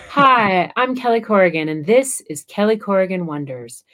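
It is said in a put-on announcer voice. The speaker sounds like a performer, not herself. The speaker calls it wrong. "I hear myself putting on like radio voice"

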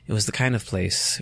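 It is read in a sultry, seductive voice.

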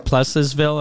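The name is said with an English pronunciation.

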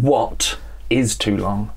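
The word 'is' is said in full, stressed. It asks what counts as too long. "But I'm asking"

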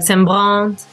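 It is said the way French people say it.

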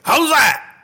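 It is said in a wild, excited way.

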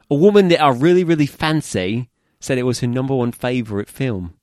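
It is read in a put-on British accent.

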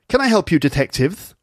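A posh voice with a speech impediment. "maybe I should give him a speech impediment. Though he sort of speaks like this"

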